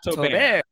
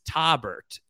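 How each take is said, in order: First: The final T is left silent. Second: The final T is clearly pronounced. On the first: The speaker calls it wrong. "It's not Taubert. Yeah. It's not like a cheese" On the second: The speaker calls it right. "you do pronounce that second T"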